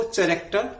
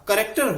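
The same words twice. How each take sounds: First: चरेक्टर said with a ch sound at the start; mispronouncing the word as चरेक्टर; student saying चरेक्टर with ch, not k; wrong pronunciation. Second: करेक्टर said with a hard k at the start; teacher says करेक्टर properly; करेक्टर with k, not ch; correct pronunciation. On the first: Retold or imitated. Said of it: "चरेक्टर बोल रहा था". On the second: Shown as a demonstration. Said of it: "चरेक्टर नहीं".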